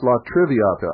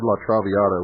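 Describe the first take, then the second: First: The second syllable has an 'ri' sound. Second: The second syllable has an 'ra' sound. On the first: The speaker calls it right. "it's La Triviata" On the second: The speaker calls it wrong. "I mispronounced it. It's my fault. I said La Traviata"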